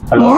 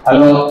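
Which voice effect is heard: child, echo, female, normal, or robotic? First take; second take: child; normal. First: The voice is shifted to sound like a child. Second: The voice sounds natural with no effect. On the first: "இது வந்து குழந்தை voice" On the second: "இது வந்து normal voice"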